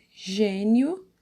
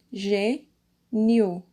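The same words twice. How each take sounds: First: Said in the usual way. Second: Gê, nio with a clear pause between the syllables; separated syllables. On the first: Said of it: "fica um pouco mais forte". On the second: Shown as a demonstration. Teacher splitting gênio for pupils, syllable by syllable. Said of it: "vocês vão separar".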